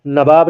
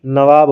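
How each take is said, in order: First: नवाब said as "nabab" with a b sound; नवाब with a b in place of the v; wrong pronunciation. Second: नवाब said as "nawab" with a clear v/w sound; correct pronunciation. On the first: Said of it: "नवाब नहीं". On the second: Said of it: "नवाब होता है". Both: Shown as a demonstration.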